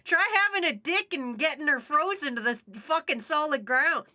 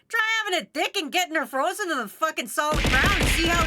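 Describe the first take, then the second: First: It is said in the speaker's usual accent. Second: It is said in a put-on Canadian accent.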